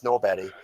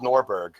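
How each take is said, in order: First: "Norberg" with the final g softened to a y sound; Swedish pronunciation of Norberg. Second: Said in the usual way. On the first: Shown as a demonstration. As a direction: say "Norberg" slowly, ending like "berry". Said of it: "pronounced Norberg". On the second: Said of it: "spelled Norberg".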